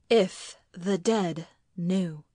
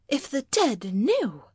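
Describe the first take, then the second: First: Slow, word by word, at an even pitch; brooding echo. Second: High, swooping exclamation; reproachful wife. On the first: A narrator's reading. Husband echoes wife's words in thought, brooding. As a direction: let each word sink in slowly. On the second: Acted. Wife warns husband about the dead, reproachful. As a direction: lament it in a higher voice.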